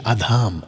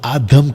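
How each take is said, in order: First: The second vowel is long. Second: The second vowel is short. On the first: The speaker calls it right. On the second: The speaker calls it wrong.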